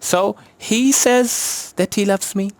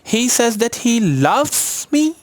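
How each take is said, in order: First: The stress falls on the word says. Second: The stress falls on the word loves. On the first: He only says so, or believes so. "अब हम सेज" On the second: What he feels is love, not just friendship. "वो जो करता है वो प्यार है"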